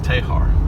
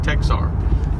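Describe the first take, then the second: First: The middle consonant is a J sound. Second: The middle consonant is a KS sound. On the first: The speaker is a local. The speaker calls it right. "That's Tejar. ... an X was a J sound" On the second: The speaker is not from the area. The speaker calls it wrong. "don't say Texar"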